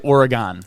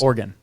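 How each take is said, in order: First: The word ends not sounding like 'organ'. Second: The word ends sounding like 'organ'. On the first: The speaker calls it wrong. "We used to say Oregon, right? ... and that's wrong" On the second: The speaker calls it right. "like an organ"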